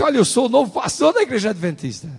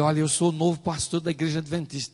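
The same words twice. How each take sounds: First: High, loud, eager self-introduction; retold excitement. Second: Mildly eager self-introduction; retold enthusiasm. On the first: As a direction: announce yourself, all fired up. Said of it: "eu fiquei todo empolgado". (apresentação empolgada, alta e aguda) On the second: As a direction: introduce yourself with a touch of eagerness. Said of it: "todo entusiasmado". (apresentação levemente entusiasmada)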